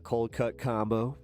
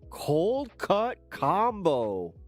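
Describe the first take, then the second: First: It is said in his normal voice. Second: It imitates the Happy Gilmore movie line.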